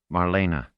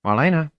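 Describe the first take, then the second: First: Marlena said as Mar-LAY-na, three syllables with a little trilled R. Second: High, loud call across the deck; calling out a name. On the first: Shown as a demonstration. Narrator showing how Orinel says Marlena, three syllables with a trilled R. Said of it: "with a little trill to the R". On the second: Acted. Boy calling Marlena from behind her, loud call.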